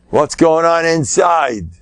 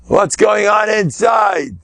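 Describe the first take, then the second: First: Said in the usual way. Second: Higher, slow, called-out question; slow emphatic shout; loud challenge. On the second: Shown as a demonstration. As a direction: demand an answer from the crowd.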